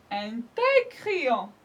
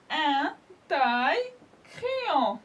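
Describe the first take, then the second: First: Said in the usual way. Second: Very slow, drawn-out syllables; slow model word. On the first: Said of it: "Là, c'est complet". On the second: Shown as a demonstration. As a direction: stretch the word for children. (très lentement, en détachant les syllabes)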